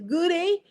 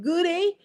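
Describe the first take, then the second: First: It is said in a British accent. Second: It is said in a British accent.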